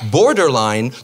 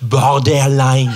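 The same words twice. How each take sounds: First: It is pronounced with an English accent. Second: It is pronounced with a French accent. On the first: It sounds pretentious to French listeners. "comment tu te la pètes ?" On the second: It avoids seeming pretentious to French friends. "parce que j'aimerais garder mes amis français"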